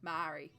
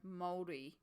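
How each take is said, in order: First: The word does not begin like 'mould'. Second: The word begins with a sound like 'mould'. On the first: The speaker calls it wrong. "instead of Māori" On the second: The speaker calls it right. "think mouldy, like bread, to go Māori"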